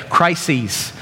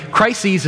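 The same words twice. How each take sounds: First: "Crises" said on its own with a relishing fall, KRY-seez; enjoy how "Crises" sounds as you say it; "Crises" lingered over with a falling tune, for the fun of saying it; savoring the word. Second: Said in the usual way. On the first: Shown as a demonstration. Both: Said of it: "plural words that just sounds cool to say".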